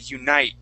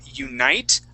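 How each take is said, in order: First: The final T is hidden, not released. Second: The final T is clearly released. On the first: The speaker calls it right. "hide that T" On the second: The speaker calls it wrong. "instead of saying unite"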